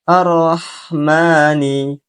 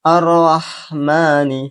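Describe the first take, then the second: No difference in how they are said.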